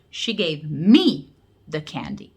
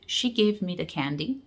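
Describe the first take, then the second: First: "me" stressed, slow and deliberate; slow demo with weight on "me". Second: Said in the usual way. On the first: Shown as a demonstration. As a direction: lean hard on "me" to single her out. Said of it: "That's the stress unstressed". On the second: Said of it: "you can say the sentence in two different ways".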